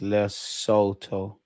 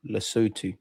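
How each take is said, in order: First: Lesotho spaced out as le, so, toe; "Lesotho" in slow, separate syllables; slow pronunciation. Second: Lesotho run together as le-SOO-too; "Lesotho" unbroken, ending in soo-too; joined-up pronunciation. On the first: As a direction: sound out "Lesotho" slowly with long o vowels. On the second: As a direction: say "Lesotho" as one word with oo vowels. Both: Shown as a demonstration. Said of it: "It's pronounced Lesotho".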